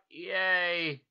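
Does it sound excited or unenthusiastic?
unenthusiastic. It sounds flat and unenthusiastic.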